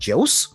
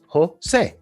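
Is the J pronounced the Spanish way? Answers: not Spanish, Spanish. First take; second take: not Spanish; Spanish. First: The J is not given its Spanish sound. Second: The J gets its Spanish sound, in two syllables. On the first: The name is read from its spelling for the first time. The speaker calls it wrong. "my first time seeing how Jose is spelled, and I'm like" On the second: The name is said the way its owner says it. The speaker calls it right. "In Spanish, you pronounce the J like this. And this is two syllables"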